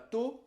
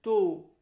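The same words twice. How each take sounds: First: The o vowel is short. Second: The o vowel is long. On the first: The speaker calls it wrong. "C'est pas to" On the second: The speaker calls it right. "On doit allonger le o dans la prononciation"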